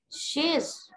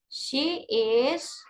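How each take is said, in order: First: The two words merge into one syllable. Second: Both words are said fully and separately. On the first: "The short form" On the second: "She is menjadi she's"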